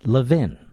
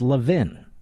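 No difference in how they are said.

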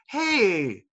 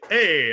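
First: It is said in a soft, gentle voice. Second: It is said in a deep radio-DJ voice.

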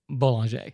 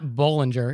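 First: The name is given a French-style pronunciation. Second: The name is given an English-style pronunciation. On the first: The speaker calls it right. "it's Boulanger" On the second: The speaker calls it wrong. "it's not Bollinger"

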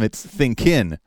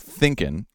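First: The stress is on the second syllable. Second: The stress is on the first syllable. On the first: The speaker calls it wrong. "but instead for him" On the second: The speaker calls it right. "Thinking should have the stress on the first syllable"

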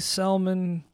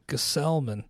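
First: The name starts without a G sound. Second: The name starts with a G sound. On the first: The speaker calls it wrong. "I'd heard it silent G" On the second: The speaker calls it right. "just as it's spelled out"

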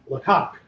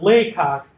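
First: The stress is on the second syllable. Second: The stress is on the first syllable. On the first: The speaker calls it wrong. "You refer to Henry Fox Talbot's home as Laycock" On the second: The speaker calls it right. "the emphasis is not on the second syllable"

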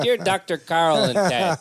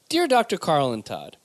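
First: It is said in a Chicago accent. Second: It is said in his plain accent.

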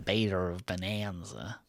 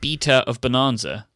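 First: It is said in an attempted American accent. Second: It is said in a British accent. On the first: "you just did the typical British thing, trying to do an American accent" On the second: "that's the very British way of saying everything"

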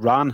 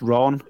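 First: The vowel sounds like the one in 'ran'. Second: The vowel sounds like the one in 'Ron'. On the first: The speaker calls it wrong. "It's not the Ran at all" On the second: The speaker calls it right. "it's Ron"

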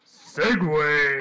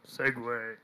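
First: The word is said very loudly with energy. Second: The word is said quietly with little energy. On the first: The speaker calls it right. "There goes my ears" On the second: The speaker calls it wrong. "That was like so half-hearted"

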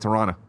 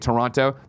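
First: The syllables are run together quickly. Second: All syllables are clearly pronounced.

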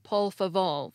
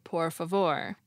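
First: The r sounds are said as l sounds. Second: The r sounds are said as flapped r. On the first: This is how it is said in parts of the Caribbean. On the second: This is the standard form.

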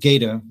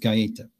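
First: The name is said the American way. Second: The name is said the Italian way.

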